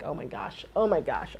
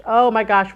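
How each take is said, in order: First: Low, soft retold muttering; hushed dread. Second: Louder mock-dismayed outburst; rising dread. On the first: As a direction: mutter it to yourself in mock dread. Retelling own sweating dread under breath. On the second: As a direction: let the retold dread burst out louder. Retold dread building after quiet repeats.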